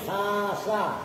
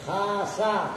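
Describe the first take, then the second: Both takes have the same delivery.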